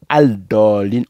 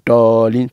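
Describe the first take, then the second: First: The L of the article is clearly pronounced. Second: The L of the article is not pronounced. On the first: The speaker calls it wrong. "on dit pas al dolin" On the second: The speaker calls it right. "on dit dolin"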